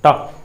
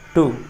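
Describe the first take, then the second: First: The vowel is reduced to almost nothing. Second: The vowel is a full long oo. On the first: It comes before a consonant. "इसके बाद यदि consonant आता है तो इसका उच्चारण ट ही होता है" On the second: It comes before a vowel. "लेकिन वावेल से पहले टू"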